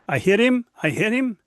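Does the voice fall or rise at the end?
rise. The voice rises at the end like a question.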